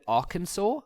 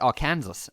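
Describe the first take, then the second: First: It is said with the American pronunciation. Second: It is said with the South African pronunciation. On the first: "I think you guys call it Arkansas" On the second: "I just always used to call it Arkansas"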